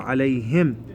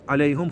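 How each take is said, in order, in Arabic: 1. الحركة بعد الهاء كسرة. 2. الحركة بعد الهاء ليست كسرة. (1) "الهاء مكسورة ... بالكسرة" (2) "عليهم خطأ"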